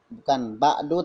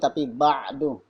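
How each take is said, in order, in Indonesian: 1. Konsonan tengahnya adalah hamzah biasa. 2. Konsonan tengahnya adalah bunyi ain yang dalam. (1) "bukan hamzah" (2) "Jadi dia itu ain"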